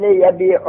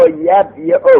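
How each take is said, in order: First: Said in the usual way. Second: یبیع slow and much higher, as yab-yi-u; uncontracted original form. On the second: Shown as a demonstration. Teacher hammering home the root form, یبیع high and slow as yab-yi-u. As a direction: lift and separate یبیع: yab, yi-u. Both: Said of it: "اصل یبیع".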